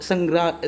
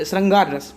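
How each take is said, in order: First: श्रृंगरा- garbled, sounds swapped, cut off mid-word; श्रृंगरा- tripped over and broken off; slip of the tongue. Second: श्रृंगार said cleanly as shring-gaar, long aa; श्रृंगार रस pronounced carefully right; corrected word. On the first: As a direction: stumble on श्रृंगरा- with the r misplaced, then stop. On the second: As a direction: fix the slip with a clear श्रृंगार. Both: Real, not acted. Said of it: "माफ़ कीजिए".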